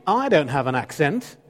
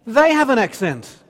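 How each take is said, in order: First: Mock protest with the weight on "I"; stress on I. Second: "They" hit high and loud, falling away after; mock indignation, punching "They" to shift the blame; stress on They. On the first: Speaker voices inner denial of having an accent, stressing "I". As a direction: lean on "I", rising at "accent". Contrasts himself with other people. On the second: Speaker voices inner blame of others' accents, indignantly stressing "They".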